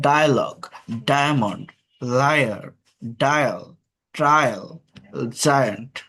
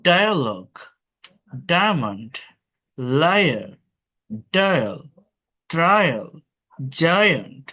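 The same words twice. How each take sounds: First: ডায়ালগ, ডায়মন্ড said slowly, lower, each falling; slow repeat drill. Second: Each word alone with a falling tune, ডায়া glide clear; teacher word drill. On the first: Teacher slowly repeating the words for students. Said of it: "এটা diphthong একটা". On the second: Teacher drilling the diphthong for students. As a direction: model ডায়ালগ, লায়ার with the আয়া glide. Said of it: "অর্থাৎ ফার্স্টে একটা consonant". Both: Shown as a demonstration.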